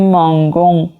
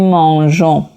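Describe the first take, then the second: First: The middle consonant is a hard g sound. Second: The middle consonant is a soft zh sound. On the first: The speaker calls it wrong. "باید بخونیم مانگون" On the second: The speaker calls it right. "ما میخونیم مانژون"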